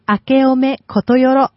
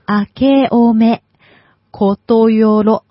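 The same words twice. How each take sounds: First: The phrase is said at normal conversational speed. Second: The phrase is said more slowly and deliberately.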